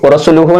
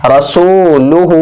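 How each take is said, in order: First: "रसूलुहु" rattled through with no held vowels; wrongly shortened vowels. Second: "रसूलुहु" slowly with सू held; ra-sooo-lu-hooo, measured "रसूलुहु"; stretched long vowels. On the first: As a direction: run "रसूलुहु" together quickly, ra-su-lu-hu. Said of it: "इसको सू, रसूलुहु नहीं पढ़ेंगे". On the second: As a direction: draw out soo and hoo in "रसूलुहु". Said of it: "इनको भी खींचकर एक अलिफ के बराबर". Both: Shown as a demonstration.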